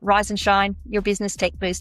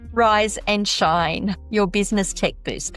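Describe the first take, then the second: First: The name is said at a normal pace. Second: The name is said slowly and carefully.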